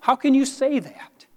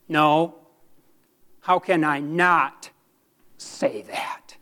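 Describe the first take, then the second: First: High-pitched quoted challenge; challenging questioner. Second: Earnest rebuttal. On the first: Preacher quotes someone challenging his words, high questioning voice. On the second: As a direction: turn the question back, pausing, then drop right down. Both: Retold or imitated. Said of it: "Someone once asked me".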